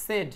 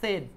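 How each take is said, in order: First: The vowel is a short 'e' sound. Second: The vowel is a short 'e' sound.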